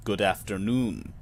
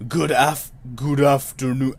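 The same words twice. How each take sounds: First: Lightly voiced clerk, low and slow; slow, lowered greeting for a towering clerk; attempted quiet thunder. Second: Fumbled booming character voice, not soft; attempted quiet thunder. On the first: Clerk greeting a visitor, slightly put-on low, slow voice. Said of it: "he says with a voice like". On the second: Reader retrying the clerk's greeting, put-on thunder voice. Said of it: "do a voice like quiet thunder".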